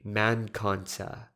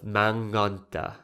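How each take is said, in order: First: A clear k sound follows 'man'. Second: An ng sound replaces the k after 'man'. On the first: The consonant is left unassimilated. "my grandmother doesn't assimilate kanta. She would just say man kanta" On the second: The consonant is assimilated. "instead of manganta"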